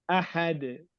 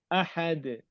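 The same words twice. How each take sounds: No difference in how they are said.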